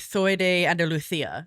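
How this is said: The middle consonant is a th sound. "it would be soy de Andalucia"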